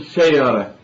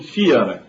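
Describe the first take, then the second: First: The first syllable has an a-like vowel. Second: The first syllable has an i vowel. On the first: The speaker calls it wrong. "لا يقولون شيرة" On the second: The speaker calls it right. "والشين في شيرة يكسرونها"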